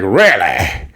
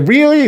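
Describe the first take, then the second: First: Lower, falling, silly "really"; goofy Spencer echo. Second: Very high "really"; retold questioning disbelief. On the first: Retold or imitated. Spencer answers Carly's really, goofy and low. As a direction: echo it back low and hammed-up. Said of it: "that was a little goofy". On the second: Carly questions Spencer, high disbelief. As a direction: squeak the question in mock disbelief. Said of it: "She's like".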